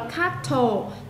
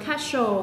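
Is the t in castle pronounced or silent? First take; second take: Pronounced; Silent. First: The t sound is pronounced. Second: The t sound is silent. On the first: The speaker calls it wrong. "ở đây mình không đọc là castle" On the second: The speaker calls it right. "chữ thờ là câm, mình đọc là castle"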